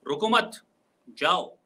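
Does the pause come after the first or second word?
second word. The pause comes after the second word. The listener should not stay but leave. "इसका मतलब ... वो वहां पे रुके नहीं बल्कि वहां से चला जाए"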